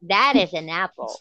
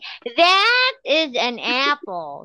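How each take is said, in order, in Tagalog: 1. Ang salitang 'that' ay binibigkas nang mahina, reduced form. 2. Ang salitang 'that' ay binibigkas nang buo, strong form. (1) "Medyo i-reduce mo" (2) "You don't say"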